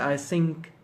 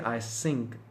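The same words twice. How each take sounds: First: The word begins with a soft th sound. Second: The word begins with a hissing s sound. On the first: The speaker calls it right. "So you can say I think so" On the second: The speaker calls it wrong. "You can't say I think"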